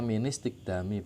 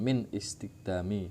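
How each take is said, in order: First: The words run together with no glottal stop. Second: A glottal stop separates the two words. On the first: The speaker calls it right. "bacanya ministikdami" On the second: The speaker calls it wrong. "bukan min istikdami"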